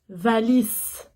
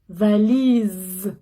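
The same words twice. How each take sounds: First: The middle consonant is a hissing s sound. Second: The middle consonant is a buzzing z sound. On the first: The speaker calls it wrong. "Je dis pas valise" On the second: The speaker calls it right. "valise, Z, comme Z"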